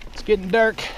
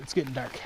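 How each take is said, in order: First: Higher, louder mock pirate voice. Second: Said in the usual way. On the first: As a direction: ham it up like a pirate. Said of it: "I'm riding like a pirate". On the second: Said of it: "repeated in pirate voice".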